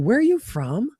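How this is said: It sounds excited, with an upward tune. The speaker genuinely wants to know the person. The speaker calls it right. "that shows like I'm really interested in you"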